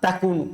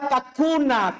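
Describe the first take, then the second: First: The word ends with a u vowel. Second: The word ends with an a vowel. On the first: The verb is not read in the subjunctive case. "dia tidak dibaca nasab, yaitu takunu" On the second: The verb is read in the subjunctive case. "Dia menasab"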